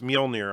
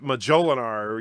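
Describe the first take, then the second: First: The word is said with two syllables. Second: The word is said with four syllables. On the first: The speaker calls it right. "but it's Mjolnir, I believe" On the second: The speaker calls it wrong. "or Majolinar"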